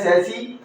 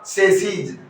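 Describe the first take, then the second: First: The word ends in a plain vowel sound. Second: The word ends with a 'z' sound. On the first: It refers to one item. "तो ये तो क्या है सेसी" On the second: It refers to more than one item. "Plural के अंदर इसका जो pronunciation होगा"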